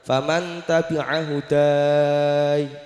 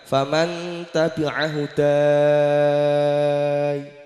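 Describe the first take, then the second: First: The final vowel is held for four counts. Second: The final vowel is held for six counts. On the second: "Boleh yang enam"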